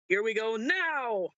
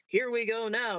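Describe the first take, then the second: First: The word now is stressed. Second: The word now is not stressed.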